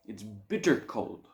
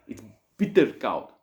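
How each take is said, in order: First: Said in the usual way. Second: "koud" said as kowd, Afrikaans vowel, heavy stress on "bitter"; "bitter koud" with the local kowd vowel; Afrikaans-style koud. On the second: Shown as a demonstration. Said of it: "it's bitter koud".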